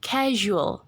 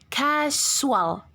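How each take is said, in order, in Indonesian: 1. Konsonan tengahnya bunyi zh yang lembut. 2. Konsonan tengahnya z biasa yang berdengung. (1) "tapi casual" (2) "Jadi bukan dibaca casual"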